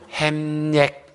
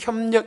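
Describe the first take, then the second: First: The first vowel is a plain 'ae' sound. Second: The first vowel is a gliding 'yeo' sound. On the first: A South Gyeongsang speaker cannot produce the glide. The speaker calls it wrong. "햄력 경제 이렇게 해요" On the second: This is the standard pronunciation. The speaker calls it right. "특히 협력 이런 말을 잘 못하거든요"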